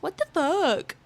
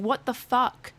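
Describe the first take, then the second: First: Put-on higher, bratty child parroting her; mocking kid voice. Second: Retold startled yell. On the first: Kid mocking her after she yelled, bratty parroting voice. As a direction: mimic her words like a smug brat. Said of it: "He mocks me and goes". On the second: Kid screams in her ear, she yells back, mild mock yell. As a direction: blurt it out as if startled. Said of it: "My automatic response was me yelling".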